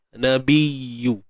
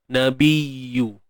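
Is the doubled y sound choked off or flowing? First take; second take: flowing; flowing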